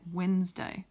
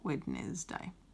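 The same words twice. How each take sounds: First: The first 'd' is silent, two syllables. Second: The first 'd' is pronounced, as spelled. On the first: The speaker calls it right. "this is how we say it" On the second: The speaker calls it wrong. "not Wednesday"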